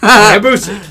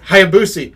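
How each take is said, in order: First: The name is said in an imitated, quirky pronunciation. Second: The name is said in its ordinary pronunciation. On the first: It copies another person's odd pronunciation. "I meant the real way" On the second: It is the standard way to say the name. "say it right"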